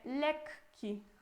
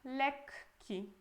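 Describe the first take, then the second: First: The k sound is held long, doubled. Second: The same.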